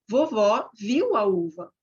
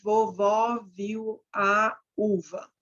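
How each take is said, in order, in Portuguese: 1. As palavras fluem juntas, sem pausas. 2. As pausas separam as palavras. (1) "eu vou falar" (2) "Em vez de dar essa pausa"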